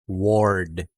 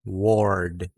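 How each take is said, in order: First: An O vowel is heard before the R. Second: The same.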